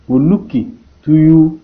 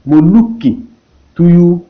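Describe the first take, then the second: No difference in how they are said.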